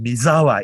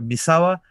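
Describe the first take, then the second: First: The middle consonant is a buzzing z sound. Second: The middle consonant is a hissing s sound.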